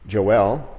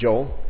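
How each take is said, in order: First: The name is said in an English way. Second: The name is said in an American way. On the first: The speaker calls it right. "A more correct pronunciation that English people will say" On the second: The speaker calls it wrong. "we say Joel"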